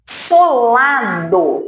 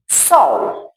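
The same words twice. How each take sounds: First: "solado" stretched slowly over three syllables; leva mais tempo. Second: "sol" as one short quick syllable; palavra rápida. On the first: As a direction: draw "solado" out to show it takes longer. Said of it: "Leva mais tempo". ("solado" bem demorado) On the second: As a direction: say "sol" briefly, a single falling beat. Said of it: "for bem rápida". ("sol" curto e rápido) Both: Shown as a demonstration.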